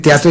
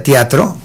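First: Said in the usual way. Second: Teatro said as tiatro, the e turned to i; mispronounced word. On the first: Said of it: "En vez de decir teatro". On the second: Shown as a demonstration. Tongue-tied host at the awards, saying teatro as tiatro. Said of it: "decía teatro".

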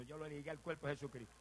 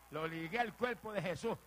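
First: Said in the usual way. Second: Louder, slow proclamation; emphatic preaching. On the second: Real, not acted. Preacher claiming his father for Christ, emphatic preaching. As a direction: declare it with authority, word by word.

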